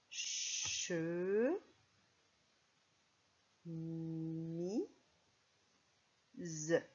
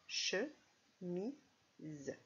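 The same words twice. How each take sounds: First: Che, mi, z drawn out with long pauses; syllable by syllable. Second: Che, mi, z in short separate beats; syllables, shorter. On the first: Teacher counts syllables for pupils, slow split che, mi, z. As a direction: sound out che... mi... z, each held. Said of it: "On va d'abord compter les syllabes". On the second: Teacher recaps the three syllables, brief separated che, mi, z. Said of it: "Trois syllabes". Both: Shown as a demonstration.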